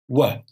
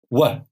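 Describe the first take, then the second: The two takes are said the same way.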